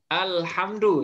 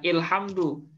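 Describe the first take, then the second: First: The first vowel is an open a sound. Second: The first vowel is a close i sound. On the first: The speaker calls it right. "Alhamdu kan?" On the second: The speaker calls it wrong. "bukan ilhamdu"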